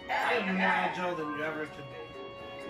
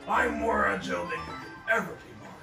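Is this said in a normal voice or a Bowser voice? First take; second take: normal voice; Bowser voice. First: It is said in his normal voice. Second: It is said in a put-on Bowser voice.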